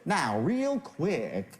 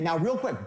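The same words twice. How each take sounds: First: It is said slowly. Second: It is said quickly.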